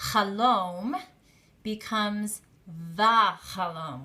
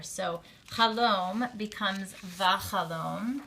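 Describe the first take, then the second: First: "chalom" then "vachalom", spoken slowly and clearly; pronunciation demo. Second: "chalom becomes vachalom" spoken slowly; slow model of "vachalom" with a clear a; pronunciation demo. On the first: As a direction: model "vachalom" syllable by syllable. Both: Shown as a demonstration. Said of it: "steal that patach".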